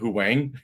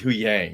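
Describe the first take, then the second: First: The second part begins with a W sound. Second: The second part begins with a Y sound. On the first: The speaker calls it wrong. "in the beginning I was saying Hu Wang" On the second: The speaker calls it right. "but it's, it's Hu Yang"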